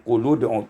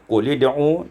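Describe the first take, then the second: First: The linking vowel is a u sound. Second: The linking vowel is an i sound.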